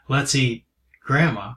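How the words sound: It sounds sinister, like a horror movie threat.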